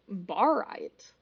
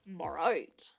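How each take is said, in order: First: Said in the usual way. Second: Low, playful repeat of BARITE; playful deep echo. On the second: Shown as a demonstration. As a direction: drop low on BARITE, sounding it out with a falling end. Echoes the name, relishing its sound.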